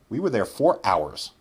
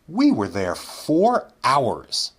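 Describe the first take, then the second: First: The sentence is spoken at a quick pace. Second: The sentence is spoken at a slow pace.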